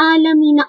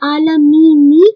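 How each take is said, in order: First: The word ends with a short 'a' vowel. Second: The word ends with a short 'i' vowel. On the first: "یہ نون پر تو زبر آ رہی ہے" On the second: "میں نے تو کہا تھا کسرہ آنا چاہیے"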